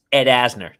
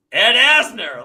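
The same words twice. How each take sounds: First: Said in the usual way. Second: A starstruck blurt of the name, pitched higher and louder. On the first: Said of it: "I go, "Ed Asner". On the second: Retold or imitated. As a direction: blurt the name like you can't believe who's at the door. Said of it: "I don't even go, "Hey, hi, can I help you?".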